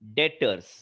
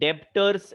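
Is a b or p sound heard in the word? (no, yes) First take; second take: no; yes. First: No b or p sound is heard mid-word. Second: A b or p sound is heard mid-word. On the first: The speaker calls it right. "बी is silent" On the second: The speaker calls it wrong. "डेप्टर्स ऐसे pronounce मत करिएगा"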